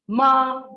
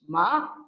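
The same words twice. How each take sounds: First: The pitch stays high and level. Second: The pitch rises through the syllable. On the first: It means dog. "ma is high level pitch becomes dog" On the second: It means mad. "Ma with a rising pitch"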